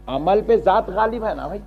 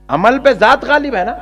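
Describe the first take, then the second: First: Said in the usual way. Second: Emphatic repeat. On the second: Shown as a demonstration.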